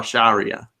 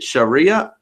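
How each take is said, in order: First: "Sharia" as SHAH-ree-uh; open first syllable. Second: "Sharia" as shuh-REE-uh; reduced first syllable. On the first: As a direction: say "Sharia" with a full "shah" at the start. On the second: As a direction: say "Sharia" with a short, weak "shuh" at the start. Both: Shown as a demonstration. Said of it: "is it Sharia or Sharia".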